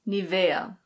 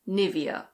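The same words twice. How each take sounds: First: It is said with a German pronunciation. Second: It is said with an English pronunciation. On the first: "In German, this is pronounced Nivea" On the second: "In English, we say Nivea"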